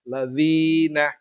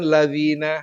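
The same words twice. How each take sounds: First: The vowel after dz is held for two beats. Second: The vowel after dz is kept short. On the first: The speaker calls it right. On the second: The speaker calls it wrong.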